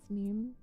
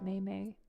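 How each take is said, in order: First: The word is said with an 'ee' vowel. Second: The word is said as two 'may' syllables.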